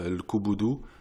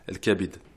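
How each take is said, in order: First: The word is said with u vowels. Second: The word is said with a and i vowels. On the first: The speaker calls it wrong. "on va pas dire el kubudu" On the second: The speaker calls it right. "on va dire el kabid"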